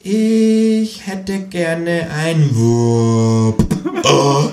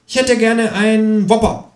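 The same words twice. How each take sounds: First: Very slow, stretched-out repeat; high kangaroo voice, extremely drawn out; as if for idiots. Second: High-pitched, drawn-out kangaroo voice; high, unhurried character voice; kangaroo's order. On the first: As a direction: drag out every word as if explaining to a dimwit. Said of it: "wiederholt das Känguru für Dumme". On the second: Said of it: "sagt das Känguru". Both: A narrator's reading.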